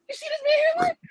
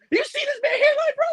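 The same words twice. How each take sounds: First: Mock crying. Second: Mock outrage. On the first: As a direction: fake sob, very high and strained. Mocking hairline, crying sound. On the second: Mocking a rival's hairline.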